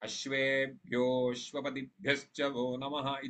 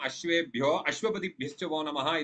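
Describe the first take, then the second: First: The 'a' of the second word is dropped. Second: The 'a' of the second word is pronounced separately. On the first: It keeps the metre. The speaker calls it right. "इत्येव वक्तव्यम्" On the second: It breaks the metre. The speaker calls it wrong. "वक्तुं न अर्हामः"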